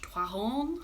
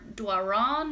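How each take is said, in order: First: The name is said with a French reading. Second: The name is said with an English reading.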